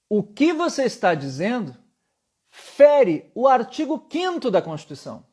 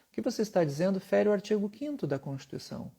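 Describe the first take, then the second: First: The pitch closes downward at the end, commanding. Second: The pitch rises at the end like a question. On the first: The speaker sounds forceful and in command. The speaker calls it right. "eu fecho no final... uma inflexão de comando" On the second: The speaker sounds somewhat unsure. The speaker calls it wrong. "a minha inflexão vocal era de uma pergunta"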